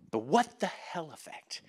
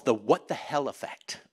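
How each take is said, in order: First: Much softer, lingering on WHAT; hushed repeat. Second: Said in the usual way. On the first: Real, not acted. Preacher repeating the book's term, hushed for weight. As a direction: drop the volume and let it land.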